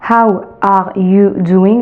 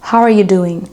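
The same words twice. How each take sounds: First: The words are said separately, French-style. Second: The words run together into one linked phrase. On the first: The speaker calls it wrong. "tu retiens toujours de manière française dans ta tête" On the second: The speaker calls it right. "il faut pouvoir vraiment lier les mots"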